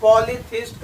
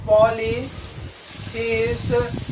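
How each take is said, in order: First: Said in the usual way. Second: polytheist stretched out in parts; polytheist spaced out for learners; slow repeat. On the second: Shown as a demonstration. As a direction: say polytheist slowly, breaking it into parts. Repeats answer slowly for learners.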